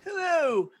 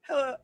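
First: It is said in an odd put-on voice. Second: It is said in a natural voice.

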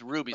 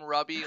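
First: The first vowel is long, as in 'rue'. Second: The first vowel is short, as in 'rub'. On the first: This is the official way of saying the name. The speaker calls it right. "the correct pronunciation is Ruby" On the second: This is a private, informal way of saying the name. The speaker calls it wrong. "I still call him Rubby"

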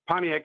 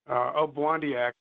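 First: The name starts with a p sound. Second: The name starts with an o sound. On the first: This is the English-adapted form of the name. The speaker calls it wrong. "Pontiac is more the anglicized pronunciation of his name" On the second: This is closer to the original form of the name. The speaker calls it right. "Obwandiak is probably more closely to the way"

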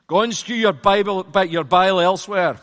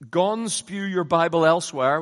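First: It is said in a put-on Scottish accent. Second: It is read in the speaker's ordinary accent.

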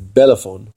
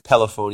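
First: The word begins with a B sound. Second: The word begins with a P sound. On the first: "with a B"

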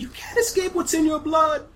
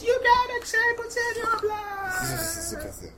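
First: It is said in a normal voice. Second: It is said in a creepy voice.

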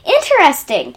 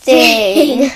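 First: It sounds genuinely interested and normal. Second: It sounds disgusted, stretched out and lower.

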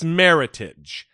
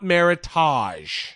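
First: The ending rhymes with the word heritage. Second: The ending has a French-sounding 'tahzh' sound. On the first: The speaker calls it right. "meritage is a mix of two words, meritorious heritage. So it's meritage" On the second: The speaker calls it wrong. "not meritage. There's no ta"

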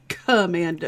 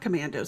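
First: The k sound is hard and exaggerated. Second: The k sound is said plainly. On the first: The speaker calls it right. "I say all of their stuff with the K's" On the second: The speaker calls it wrong. "It's not commandos"

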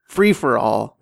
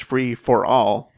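First: The stress falls on the word free. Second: The stress does not fall on free. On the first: "I'm putting the emphasis on free" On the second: "You could also interpret it as"

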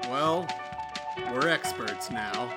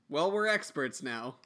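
First: It is said like a dramatic TV dad. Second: It is said casually in his own voice.

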